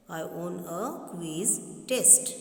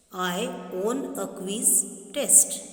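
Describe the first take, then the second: First: Said in the usual way. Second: Slow, stressing own; slow read. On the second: Shown as a demonstration. Teacher reading a wrong sentence slowly. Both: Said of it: "This is wrong".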